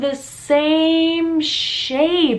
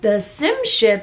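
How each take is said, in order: First: Both words have long a vowels. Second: Both words have short i vowels. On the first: The speaker calls it right. "oh, the same shape" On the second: The speaker calls it wrong. "she had some issues with vowel sounds"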